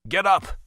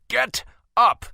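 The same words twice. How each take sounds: First: Loud, higher order; commanding shout. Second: Much higher and louder roar of command; dominant command. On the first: Caspian ordering the kneeling crowd up, loud command. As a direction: bark it at the crowd. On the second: Caspian commanding the crowd a second time, full dominance. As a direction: make the whole crowd obey at once. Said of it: "with unquestionable dominance". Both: A narrator's reading.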